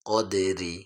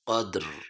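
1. শব্দটি ছোট 'i' স্বর দিয়ে শেষ হয়। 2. শব্দটি শুধু 'r' ধ্বনি দিয়ে শেষ হয়।

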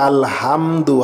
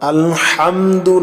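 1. 'h' হলো একটি সাধারণ, হালকা ধ্বনি। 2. 'h' হলো একটি গভীর, গলার ধ্বনি। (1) "হা দিয়ে যদি বলি" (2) "আলহামদু না বলে"

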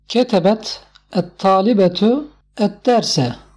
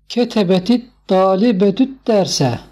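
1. Kelimeler ayrı ayrı okunuyor, birleştirilmeden. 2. Kelimeler tek akıcı bir ifade hâline getirilerek bağlanıyor.

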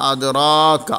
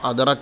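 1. r ന് ശേഷമുള്ള സ്വരം ദീർഘമാണ്. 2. r ന് ശേഷമുള്ള സ്വരം ഹ്രസ്വമാണ്. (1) "റായിനെ നീട്ടി" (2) "അദ്റക്ക എന്നല്ല പറഞ്ഞത്"

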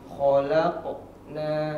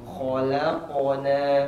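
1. Ada jeda di dalam kata itu. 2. Kata itu mengalir tanpa jeda sama sekali. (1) "kesalahan yang sering terjadi pada huruf qalqalah itu pada hurufnya ada jeda" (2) "harusnya bersambung"

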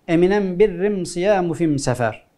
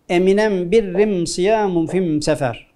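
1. Takı m sesiyle okunur. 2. Takı m sesiyle okunur.

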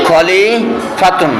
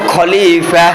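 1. শব্দটি পূর্ণ -tun দিয়ে শেষ হয়। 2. শব্দটি সাধারণ স্বরবর্ণে শেষ হয়, -tun নেই। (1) "শেষে তো গোলটা আসছে না" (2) "তাহলে খলিফাতুন এখানে হয়ে যাবে খলিফা।"

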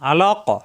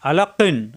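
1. শব্দটি একটি শুধু, প্রতিধ্বনিত 'q' ধ্বনি দিয়ে শেষ হয়। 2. শব্দটি একটি পূর্ণ 'qin' ধ্বনি দিয়ে শেষ হয়। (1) "আমরা থামলে জানি লাস্টের অক্ষরে সাকিন হয়ে যায়, সাকিন হলে কফ সাকিন কলকল হয়ে যাবে।" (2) "কফ দুই জের কিন"

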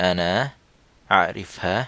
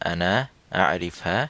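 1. এটি সংক্ষিপ্ত সৌদি উপভাষার রূপে বলা হচ্ছে। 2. এটি সংক্ষিপ্ত সৌদি উপভাষার রূপে বলা হচ্ছে।

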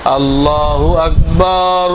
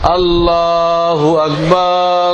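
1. Akbar-এর শেষ স্বরধ্বনিটি টানা হয়। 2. Akbar-এর শেষ স্বরধ্বনিটি টানা হয়।

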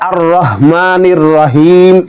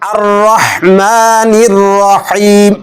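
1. 'Rahman'-এর 'h' হালকা, সাধারণ 'h'। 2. 'Rahman'-এর 'h' গলা থেকে আসে। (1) "অনেকে বলে আর রহমানির রহিম, এরকম বললে ভুল হবে" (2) "এখানে রহমান হায়হুত্তি গলার মধ্যে উচ্চারণ করতে হবে"

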